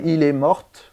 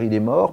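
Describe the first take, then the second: First: The final t of mort is sounded. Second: The final t of mort is silent. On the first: The speaker calls it wrong. "on va prononcer soi-disant le T" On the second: The speaker calls it right. "au lieu de dire il est mort"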